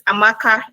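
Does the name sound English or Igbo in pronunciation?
Igbo. It is said with native Igbo pronunciation and tones. The speaker calls it right. "like the way it is pronounced"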